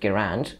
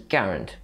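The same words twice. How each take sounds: First: The stress is on the second syllable. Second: The stress is on the first syllable. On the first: The speaker calls it wrong. "with accent on the second A" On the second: The speaker calls it right. "with an accent on the first A"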